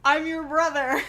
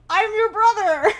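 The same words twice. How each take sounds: First: Mock dramatic reveal. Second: "I'm your brother" yelled high through laughter; laughing reveal. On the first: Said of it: "he was like". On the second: Retold or imitated. Retelling the surprise brother's arrival, laughing hard. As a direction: cackle the reveal out loud.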